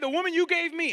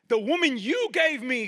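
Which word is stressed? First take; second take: woman; you. First: The stress is on "woman". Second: The stress is on "you".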